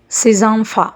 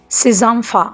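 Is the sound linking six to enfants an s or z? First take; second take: z; z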